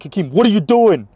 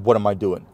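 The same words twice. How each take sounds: First: High, loud confrontational demand; raised-voice imitation of someone confronting you; imitated yelling. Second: Said in the usual way. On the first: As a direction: mimic an angry man yelling. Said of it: "he's yelling at me".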